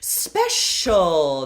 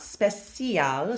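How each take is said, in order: First: The middle consonant is a clear sh sound. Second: The middle consonant is not an sh sound. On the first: The speaker calls it right. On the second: The speaker calls it wrong.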